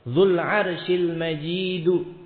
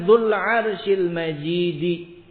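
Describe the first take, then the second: First: The last word ends with an u vowel. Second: The last word ends with an i vowel. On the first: The glory describes God. "dibaca dengan rafa', dengan dhammah" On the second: The glory describes the throne. "dengan kasrah jar"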